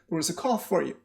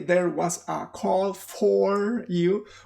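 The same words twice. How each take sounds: First: The small words are reduced to schwas. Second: The small words keep full vowels. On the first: The speaker calls it right. "all those are schwas" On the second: The speaker calls it wrong. "usually people do not say there was a call for you"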